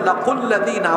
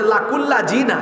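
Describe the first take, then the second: First: The consonant before the last syllables is a th. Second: The consonant before the last syllables is a z. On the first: The speaker calls it right. "এটা হবে লাকুল্লা দিনা" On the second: The speaker calls it wrong. "তারপর বলতেছে লাকুল্লা জিনা"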